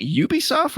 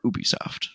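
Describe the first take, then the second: First: "Ubisoft" starting with a "you" sound; Ubisoft said YOO-bee-soft. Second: "Ubisoft" starting with a plain "oo"; Ubisoft said OO-bee-soft. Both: Shown as a demonstration. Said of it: "is it Ubisoft or Ubisoft".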